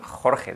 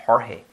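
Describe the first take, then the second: First: "Jorge" with a strong throaty Spanish J; Spanish jota. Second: Airy H in place of the jota in "Jorge"; English speakers' Jorge. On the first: Shown as a demonstration. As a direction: scrape both consonants of "Jorge" in the throat. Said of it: "nunca pueden decir este sonido". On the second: Retold or imitated. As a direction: imitate an English speaker saying "Jorge", HOR-hay. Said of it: "dicen Jorge".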